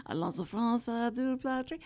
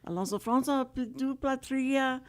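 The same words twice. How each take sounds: First: Mock French. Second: Hammed-up fake French accent on Alonso Franza; mock French. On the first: Host repeating her only French phrase, mock French accent. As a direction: fake French accent with a rise on du. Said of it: "all I remember is". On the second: Host showing off her leftover school French, mock French accent. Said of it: "if you do the accent". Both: Shown as a demonstration.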